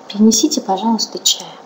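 The voice resonates warmly from the chest. It is said warmly, from the heart. "Можно сказать сердечной чакрой, то есть из середины груди такой голос"

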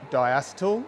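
The word is said with an Australian pronunciation. "In Australia we pronounce it diacetyl"

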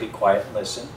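It is said in a polite, gentle tone.

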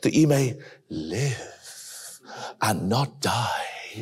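It is said in a put-on, sinister character voice.

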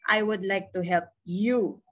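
The word 'you' is said with stress. "Kung nilagay ko naman dito sa you"

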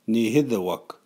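It is said in the Cree TH dialect.

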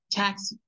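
The consonants are strong and the vowels soft. "Inglés, ... Me recargo en la T y marco la X"

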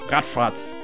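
The name is said with German pronunciation.

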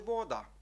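It is pronounced the Czech way. "а чеською буде «вода»"

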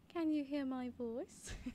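It is read in a British accent.

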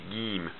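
It begins with a hard g sound. "they will pronounce the jim more like the letter G"

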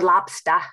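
The word is said in a Boston accent.

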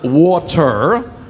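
It is said in a general American accent. This is how the rest of the country says it. "The country says water"

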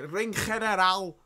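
It is said in a German accent.

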